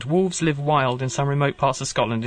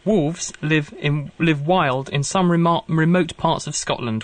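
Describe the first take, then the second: First: Said in the usual way. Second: Slow, stumbling read with a restart; halting first read. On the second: Real, not acted. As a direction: feel your way through the words slowly.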